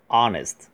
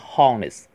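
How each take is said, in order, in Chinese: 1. 这个词以元音开头。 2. 这个词以 h 音开头。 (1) "h 不发音，是honest" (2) "不要发成honest"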